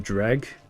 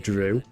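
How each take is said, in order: First: The word ends with a hard g sound. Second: The word ends in an oo vowel. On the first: This is how the word is said in the game. "It's like when they pronounce um" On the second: This is how the speaker first read the word. "And I always read it as Drew"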